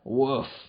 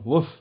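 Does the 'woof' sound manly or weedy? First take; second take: manly; weedy. First: It is said in a manly voice. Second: It is said in a small, weedy voice. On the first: The speaker calls it right. "that's better, because you said it being manly" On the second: The speaker calls it wrong. "You say it like a fucking wee bastard"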